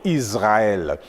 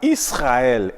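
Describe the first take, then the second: First: The S is pronounced as a buzzing Z sound. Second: The S is pronounced as a hissing S sound. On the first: The speaker calls it wrong. "et non Israël" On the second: The speaker calls it right. "on dira Israël"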